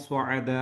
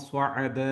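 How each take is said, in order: The two takes are said the same way.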